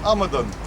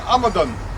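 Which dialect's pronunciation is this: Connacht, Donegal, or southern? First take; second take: Donegal; Donegal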